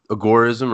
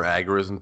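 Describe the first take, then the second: First: "agorism" as uh-GOR-ism; second-syllable stress. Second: "agorism" as AG-er-ism; first-syllable stress. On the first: Guest defining the term, "agorism" as uh-GOR-ism. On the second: Guest allowing the other reading, "agorism" as AG-er-ism. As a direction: hit the opening AG of "agorism". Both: Shown as a demonstration. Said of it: "potato, potato".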